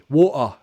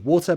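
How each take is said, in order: First: The middle T is a glottal stop. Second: The middle T is a clear, full T. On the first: "Cockney might do it glottally" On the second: "I pronounce it as a true T"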